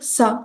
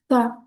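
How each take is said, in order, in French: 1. La syllabe commence par un s sifflant. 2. La syllabe commence par de l'air qui passe entre les dents. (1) "c'est pas un S. Faut pas dire ça" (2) "on laisse passer de l'air à travers euh, les dents"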